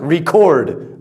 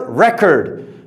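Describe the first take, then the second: First: The stress is on the second syllable. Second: The stress is on the first syllable. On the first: It is the action of saving sound. "As a verb, ... pronounced record" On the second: It is a thing that was saved. "as a noun, record"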